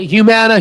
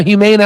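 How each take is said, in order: First: "Humana" said as hyoo-MAN-uh; Humana with short A. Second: "Humana" said as hyoo-MAY-nuh; Humana with long A. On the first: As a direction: give "Humana" a MAN in the middle. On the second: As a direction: give "Humana" a MAY in the middle. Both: Shown as a demonstration. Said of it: "I say it all the way".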